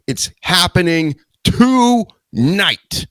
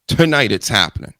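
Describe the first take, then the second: First: Dramatic hype. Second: Said in the usual way. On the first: Acted. Dramatic announcement, drawn out.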